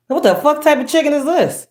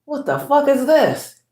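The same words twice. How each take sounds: First: High, disbelieving what the fuck; disgusted outburst. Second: High and slow, drawn out in disgust; slow disgusted outburst. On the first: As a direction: squeal it in disgust. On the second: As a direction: stretch it out, appalled. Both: Real, not acted. Ranting about fatty chicken.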